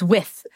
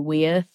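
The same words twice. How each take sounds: First: The word is said short, in one syllable. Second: The word is drawn out into two syllables. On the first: The speaker calls it right. "It's with" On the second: The speaker calls it wrong. "it's not two syllables"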